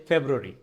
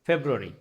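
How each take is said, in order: No difference in how they are said.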